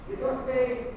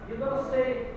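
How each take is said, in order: Both takes have the same delivery.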